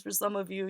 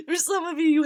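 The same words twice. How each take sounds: First: Said in the usual way. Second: High, loud laugh spilling into the words. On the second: Real, not acted. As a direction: giggle it out, still amused. Laughing after fuckboy joke.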